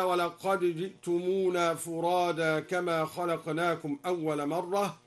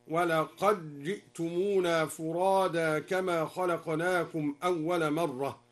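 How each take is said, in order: First: "ولقد جئتمونا" with d kept; standard reading. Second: "ولقد جئتمونا" with d merged into j, laqajji'tumuna, slow; assimilation. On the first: Teacher quoting the standard reading, plain chant. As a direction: say laqad ji'tumuna with clear d. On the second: Teacher demonstrates al-Duri's assimilation, slow tarteel. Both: Shown as a demonstration. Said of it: "أدغم الدوري الدال في الجيم".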